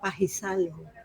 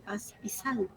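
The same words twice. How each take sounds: First: The final S of paz is dropped. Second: The final S of paz is pronounced. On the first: "somos muy dados a eliminar las S al final" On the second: "en vez de"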